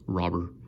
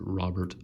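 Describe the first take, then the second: First: The name is said the way it sounds in Cuba. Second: The name is said the way Americans say it. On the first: This is how the player says his own name. The speaker calls it right. "in Cuba it's pronounced Robber" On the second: This is how people here usually say the name. The speaker calls it wrong. "people here tend to pronounce it Robert"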